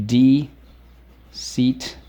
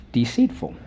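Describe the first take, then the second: First: Stretched-out deceitful, each syllable drawn long; slow, careful teacher model of Deceitful. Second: Said in the usual way. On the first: Shown as a demonstration. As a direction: sound out Deceitful slowly for the class. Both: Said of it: "Let's go".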